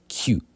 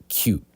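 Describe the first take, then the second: No difference in how they are said.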